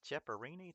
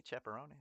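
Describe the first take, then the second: First: "Cheparini" with a REE-nee ending, rising; unsure pronunciation. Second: "Cheparoni" with a ROH-nee ending; alternative pronunciation. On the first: Streamer guessing a viewer's hard name, "Cheparini" with REE-nee, questioning. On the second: Streamer guessing a viewer's hard name, "Cheparoni" with ROH-nee, tentative. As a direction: try "Cheparoni" rhyming with pepperoni, tentatively. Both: Shown as a demonstration. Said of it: "That's a hard name. Sorry if I mispronounce".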